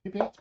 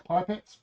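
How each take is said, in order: First: "Pipettes" said as pip-ETS, questioning; "Pipettes" starting with pip, as a question; short-i pronunciation. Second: "Pipettes" said as PIPE-ets, questioning; "Pipettes" starting with pipe, as a question; long-i pronunciation. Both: Shown as a demonstration. Trying two pronunciations of a word.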